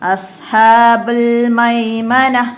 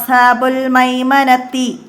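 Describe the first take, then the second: First: The last word ends with an h sound. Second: The last word ends with a t sound. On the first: The speaker calls it right. "ഹ ആയിട്ടാണ് അവിടെ നിർത്തേണ്ടത്" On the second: The speaker calls it wrong. "അങ്ങനെ പറയരുത്"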